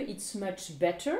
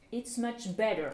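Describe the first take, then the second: First: 'better' with a crisp British T; slow, clear T in "better". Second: American 'better' with a D in the middle. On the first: Teacher translates c'est beaucoup mieux, better with real T. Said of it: "comme un T". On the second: Teacher contrasts for learners, better with D sound. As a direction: say "better" as 'bedder', falling end. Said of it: "comme un D". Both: Shown as a demonstration.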